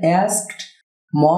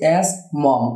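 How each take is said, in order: First: The t sound after the k is pronounced. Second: The t sound after the k is dropped. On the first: The speaker calls it wrong. "না বলে" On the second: The speaker calls it right. "বলছি অ্যাস্ক মম"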